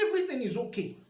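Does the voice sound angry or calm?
angry. It is said in a loud, angry tone. The speaker is not really okay.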